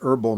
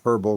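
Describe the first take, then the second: First: The word begins with a vowel, no H sound. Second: The word begins with an audible H sound. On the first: This is how it is said in the United States. "we don't at- aspirate the H" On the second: This is how it is said in England. "you can hear the H"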